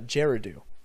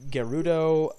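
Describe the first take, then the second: First: It begins with a soft J sound. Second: It begins with a hard G sound. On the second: "with the uh, hard G as opposed to the uh, softer one"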